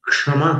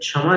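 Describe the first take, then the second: First: The word begins with a 'ksh' sound. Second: The word begins with a 'ch' sound. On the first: The speaker calls it right. "क्षमा करते हैं" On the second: The speaker calls it wrong. "क्ष का उच्चारण छ जैसा नहीं करना"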